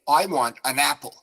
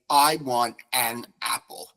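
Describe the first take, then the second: First: The n is joined onto apple. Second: The n stays separate from apple. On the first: The speaker calls it right. "you take the N off the end of the article and you put it at the beginning of apple" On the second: The speaker calls it wrong. "You would never say"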